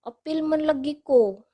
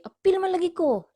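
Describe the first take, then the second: First: It is said in a soft tone. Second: It is said in an angry tone. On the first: "Or the soft tone" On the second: "like the angry tone"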